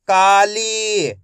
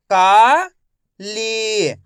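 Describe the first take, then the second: First: Said in the usual way. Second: काली drawn out slowly, syllables apart; teacher sounding out काली slowly. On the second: Shown as a demonstration. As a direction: stretch काली into का and ली. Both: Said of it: "मैं किस तरीके से एक एक अक्षर का उच्चारण करके".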